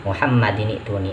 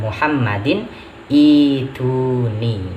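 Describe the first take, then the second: First: The two words run together without a break. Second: A break comes before the second word begins. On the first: "tadi itu wasol ya" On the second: "kalau seandainya dibacanya dibaca waqaf"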